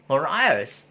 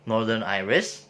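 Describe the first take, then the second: First: Northern Irish said clipped as "Nor Ice" in a Northern Irish accent. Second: Said in the usual way. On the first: Shown as a demonstration. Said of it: "in their accent, they will say it". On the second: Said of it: "they will say it".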